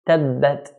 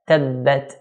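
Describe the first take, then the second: The two takes are said the same way.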